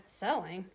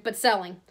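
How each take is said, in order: First: "Selling" said softly as a question; questioning echo. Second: Said in the usual way. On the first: A narrator's reading. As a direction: echo "Selling" much quieter, in doubt. Shopkeeper echoes it in doubt.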